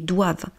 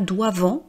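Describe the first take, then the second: First: The final -ent ending is silent. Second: The final -ent ending is pronounced aloud. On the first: The speaker calls it right. "mais doivent" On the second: The speaker calls it wrong. "c'est pas doivent"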